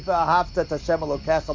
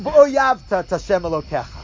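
First: The first word has a clear 'ahav' sound. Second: The first word has an 'oyav' sound instead. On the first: The speaker calls it right. "the way the verse is written" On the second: The speaker calls it wrong. "difficulty with enunciation and pronunciation"

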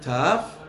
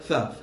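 First: The first consonant is a hard stop sound. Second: The first consonant is a soft fricative sound. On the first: The letter carries a dagesh. "one with a dagesh" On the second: The letter is without a dagesh. "one with rafui"

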